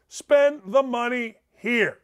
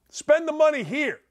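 First: Slow, deliberate, each word weighted; slowed-down insistent restatement; slow emphatic repeat. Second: Said in the usual way. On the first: Real, not acted. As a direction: spell it out slowly for emphasis.

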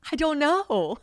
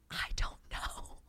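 First: Much higher and louder, a mock wail; loud exasperated I don't know. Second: Slow breathy whisper, almost no voice; whispered I don't know. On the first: To girlfriends asking about long distance, a loud mock wail. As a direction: burst out with it after the whisper. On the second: Retold or imitated. Asked how she does long distance, she whispers slowly. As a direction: hush it out like a secret confession.

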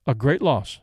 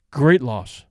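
First: Said in the usual way. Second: Lightly growled agreement; a touch of a growl. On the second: A narrator's reading. Second airman echoing his friend's condolence, mildly gruff. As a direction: echo it low, a mild gruff grunt. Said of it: "growled his companion".

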